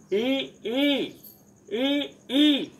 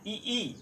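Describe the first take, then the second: First: ई short then ई long, much higher and louder; correct pronunciation. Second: ई ई said alike, no length contrast; wrong pronunciation. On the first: Teacher showing short and long ई. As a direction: contrast short ई and long ई clearly. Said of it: "दोनों वर्णों का शुद्ध उच्चारण आपको मिलेगा". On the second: Teacher demonstrating the wrong ई ई. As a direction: say ई ई both the same. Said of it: "ये गलत होगा". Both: Shown as a demonstration.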